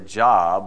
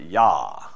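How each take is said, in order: First: The name begins with a J sound. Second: The name begins with a Y sound. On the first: "we would say Jah" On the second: "I think they would pronounce it Yah"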